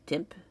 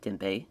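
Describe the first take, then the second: First: The final e is silent. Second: The final e is pronounced. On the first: "I believe the the uh, E is silent" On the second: "It might be Tempe"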